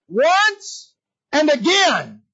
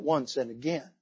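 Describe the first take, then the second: First: "Once" and "again" stretched long and high; drawn-out emphatic cry. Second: Quiet, low restatement. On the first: Preacher stressing Satan's persistence, "Once and again" cried out slowly. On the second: Preacher explaining the repeated hindering, low and soft. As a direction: drop "once and again" low and soft. Same words repeated softly. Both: Acted.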